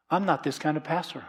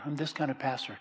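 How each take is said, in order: First: Firm, slightly raised, scolding pastor; a touch of the critical pastor; stern pastor. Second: A hint of a kind shepherd; gentle pastor. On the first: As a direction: play the harsh preacher you are not. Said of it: "church where it's like this". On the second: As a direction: show the loving kind of pastor. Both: Shown as a demonstration.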